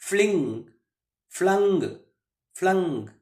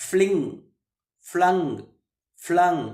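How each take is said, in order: Both takes have the same delivery.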